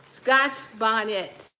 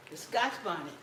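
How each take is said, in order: First: "Scotch bonnet" drawn out slowly, each word leaned on; slow emphatic repeat. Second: Said in the usual way. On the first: Real, not acted. Showing viewers the pepper, saying its name slowly and with weight.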